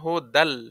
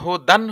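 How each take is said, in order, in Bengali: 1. শেষের n একটি l ধ্বনিতে মিশে যায়। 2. শব্দটি একটি স্পষ্ট n ধ্বনি দিয়ে শেষ হয়। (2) "যেমন হু দান হইতো, কেন দান আর হবে না"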